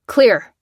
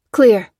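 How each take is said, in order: First: Loud clipped call; shout. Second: Loud answering call; shouted reply. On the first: Soldier shouting the all-clear to his squad, loud. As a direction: call it out across the car. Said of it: "shouted the foremost man". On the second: Female soldier shouting back the all-clear, loud. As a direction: call back from the far side. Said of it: "replied the female". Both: Acted.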